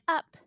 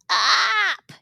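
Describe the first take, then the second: First: It is said in a calm, pleasant voice. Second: It is said in an upset, demanding voice. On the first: The child is content and not upset. "when she's not upset, it's like up" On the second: The child wants to be picked up right now. "when she's like, get me up right now, it's like up"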